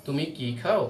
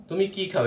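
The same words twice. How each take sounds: First: "তুমি কি খাও?" with the voice rising on খাও; rising tune on খাও; yes-no question tune. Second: "তুমি কি খাও?" with তুমি stressed and the tune falling to the end; what-question tune. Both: Shown as a demonstration. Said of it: "এখানে আমি কি উচ্চারণ করব?".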